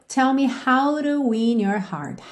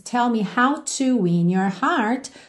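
First: The t in 'to' is a quick flap. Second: The t in 'to' is a full t. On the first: "rararã no T da preposição to" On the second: "ao invés de termos"

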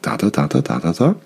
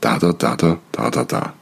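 First: The pitch rises at the end. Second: The pitch falls at the end. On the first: It is a question. "Weil am Ende die Intonation nach oben geht" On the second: It is a command. "dann gehst du runter am Ende"

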